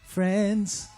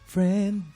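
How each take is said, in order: First: The word ends with a clear s sound. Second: The word ends without an s sound. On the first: The speaker calls it right. "importante kasi yun eh" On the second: The speaker calls it wrong. "parang friend lang yung naririnig ko. Kulang siya ng S"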